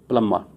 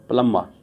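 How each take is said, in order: No difference in how they are said.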